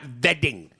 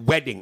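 First: The word begins with a V sound. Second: The word begins with a W sound. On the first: The speaker calls it wrong. "It's not vetting" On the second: The speaker calls it right. "It's with a W"

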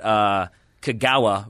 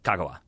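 First: The middle syllable "ga" is stressed. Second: All syllables are said evenly, without stress. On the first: The speaker calls it wrong. "we would always get Kagawa wrong because we would hit the ga" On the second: The speaker calls it right. "instead it's like Kagawa. Yeah, it's all da-da-da"

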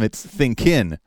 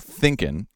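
First: The stress is on the second syllable. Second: The stress is on the first syllable. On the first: The speaker calls it wrong. "but instead for him, it's thinking" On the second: The speaker calls it right. "Thinking should have the stress on the first syllable"

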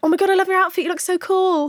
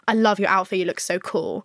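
First: It is said in a gushing, admiring tone. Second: It is said in a flirty, desiring tone.

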